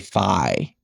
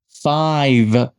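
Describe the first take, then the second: First: The final consonant is dropped. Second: The final consonant is clearly pronounced. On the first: The speaker calls it wrong. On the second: The speaker calls it right.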